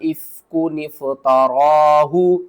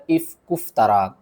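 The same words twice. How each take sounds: First: इफ्कुन इफ्तराहु slowly chanted, noon joined to fa; correct recitation. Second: Said in the usual way. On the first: Shown as a demonstration. Teacher shows the correct reading, slow recitation. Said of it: "किस तरह?". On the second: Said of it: "बहुत से लोग इसको पढ़ते हैं".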